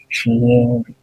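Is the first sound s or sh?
sh. It starts with an sh sound.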